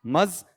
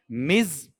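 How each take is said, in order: First: मज with a neutral 'uh' vowel; isolated मज as 'muhz'; old-fashioned pronunciation. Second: मिज with a short i; lower, isolated मिज as 'miz'; current pronunciation. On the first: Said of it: "पुराने में क्या है". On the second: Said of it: "पहले का बोलो". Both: Shown as a demonstration.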